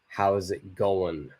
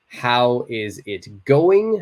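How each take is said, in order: First: 'How is' is shortened into one syllable. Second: Each word is said fully and separately.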